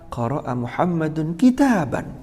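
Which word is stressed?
kitaban. The stress falls on the last word, kitaban. It answers what Muhammad read. "Muhammad sedang membaca apa?"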